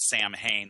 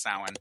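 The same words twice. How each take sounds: First: The word is pronounced following its spelling. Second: The word is pronounced differently from its spelling. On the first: The speaker calls it wrong. "Some people pronounce it Samhain the way it's spelled" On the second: The speaker calls it right. "but it's actually pronounced Samhain"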